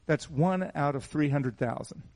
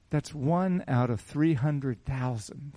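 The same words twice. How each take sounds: First: Said in the usual way. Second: Slow, weighted, leaning on one; slow emphatic repeat. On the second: Shown as a demonstration. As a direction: let each word of "That's one out of three hundred thousand" land slowly. Repeats the odds slowly for effect.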